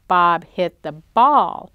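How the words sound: The stress is on the word ball. It tells what Bob hit. "Did Bob hit the truck? No"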